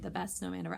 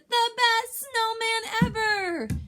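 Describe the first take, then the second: First: It is said in a calm, plain voice. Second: It is shouted loudly with excitement.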